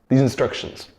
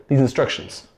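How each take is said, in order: No difference in how they are said.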